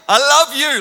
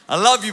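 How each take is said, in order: First: The words are said at shouted volume. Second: The words are said at raised volume. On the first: The child is near the school and the parent wants to embarrass him. "I start shouting it" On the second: The child is walking further away. "I say it a little bit louder"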